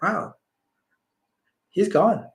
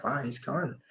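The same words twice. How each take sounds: First: A touch higher, stunned and hushed; stunned realization. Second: Much softer, inward murmur of shock; soft private thought spoken aloud; said to himself. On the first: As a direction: let the realization land in disbelief. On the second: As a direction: say it under your breath, just to yourself. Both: Retold or imitated. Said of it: "I said that internally to myself".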